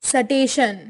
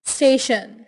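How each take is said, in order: Both takes have the same delivery.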